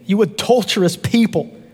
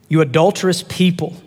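First: It is said forcefully, like an exclamation. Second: It is said calmly, without force.

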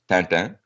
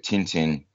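First: The name is said with a French pronunciation. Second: The name is said with an English pronunciation. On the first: The speaker calls it right. "it's French, it's Tintin" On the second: The speaker calls it wrong. "I'm mispronouncing it"

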